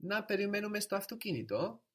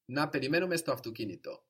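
First: Much higher on Να περιμένουμε, rising at the end of αυτοκίνητο; question intonation. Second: Quick Να περιμένουμε, falling firmly through αυτοκίνητο; affirmative tone. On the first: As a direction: ask Να περιμένουμε στο αυτοκίνητο as "shall we?", high with a final rise. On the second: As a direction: say Να περιμένουμε στο αυτοκίνητο as "let's", brisk with a closing fall. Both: Shown as a demonstration. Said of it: "tune in to the tone of voice".

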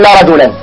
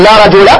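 First: "رجلا" with tanween, ending "rajulan"; the incorrect "لا رجلا" with final n; wrong form. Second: "رجل" with one fatha, no tanween; correct form. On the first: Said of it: "ولا نقول". ("رجلا" بالتنوين خطأ) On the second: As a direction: say "لا رجل" ending "rajula". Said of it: "بفتحة واحدة بدون تنوين". ("رجل" بفتحة واحدة دون تنوين) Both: Shown as a demonstration.

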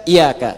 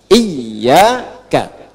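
First: "iyyaka" with one short y, as i-ya-ka; wrong, without tasydid. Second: "Iyyaka" with a long, held double y; correct tasydid reading. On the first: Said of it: "Dan jangan dibaca iyyaka". ("iyyaka" tanpa tasydid, ya tunggal) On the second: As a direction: model "Iyyaka" slowly, leaning on the doubled y. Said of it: "Dibacanya apa?". ("Iyyaka" dengan ya bertasydid, ditahan) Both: Shown as a demonstration.

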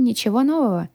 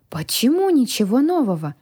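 First: Said in the usual way. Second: Put-on higher, puzzled young dragon; wondering, swooping query; surprised question. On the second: A narrator's reading. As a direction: ask it in open surprise, leaning on "Почему". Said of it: "удивлённо уточнил хранитель".

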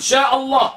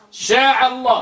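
First: شاء said with a glottal stop, "shaʔa"; teacher giving the right hamza in شاء الله; correct hamza. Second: شاء said as "shaʕa" with an ain; wrong ain. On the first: Teacher correcting students, شاء الله with hamza. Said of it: "قل". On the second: Teacher mocking the common mistake, ain in شاء. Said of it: "لا تبدل الهمزة عينا". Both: Shown as a demonstration.

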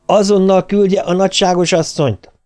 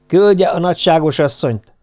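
First: Raised, high demand into the phone; bellowed order. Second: Said in the usual way. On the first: A narrator's reading. Master orders the maid to fetch his wife, bellowing. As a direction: bellow it as an order, pitch pushed up. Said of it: "Az üvöltésről felismert".

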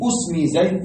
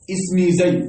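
First: اسمي said "usmi", opening on a u; usmi with damma. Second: اسمي said "ismi", opening on an i; ismi with kasra. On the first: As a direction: pronounce اسمي with initial u, "usmi zayd". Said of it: "بالضم وهي لغة ماذا". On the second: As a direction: pronounce اسمي with initial i, "ismi zayd". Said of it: "بالكسر وهذا الأصل". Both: Shown as a demonstration.

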